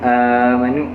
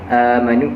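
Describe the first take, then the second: First: The first vowel is held for four beats. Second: The first vowel is held for two beats.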